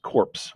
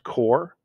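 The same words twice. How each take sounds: First: "corpse" with the p and s both heard; "corpse", one syllable ending in "ps"; sounded P and S. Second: "core" said with no p or s sound; "core", one syllable, like an apple core; silent-S pronunciation. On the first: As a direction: say "corpse", closing on a crisp "ps". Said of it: "it's pronounced corpse". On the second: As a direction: say "core", ending cleanly on the r. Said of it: "is pronounced core". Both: Shown as a demonstration.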